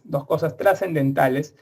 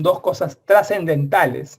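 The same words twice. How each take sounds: First: Said in the usual way. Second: Dos cosas trascendentales said slowly, each word weighed; slow emphasis. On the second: Shown as a demonstration. Teacher stressing the two key functions to students, slow and emphatic.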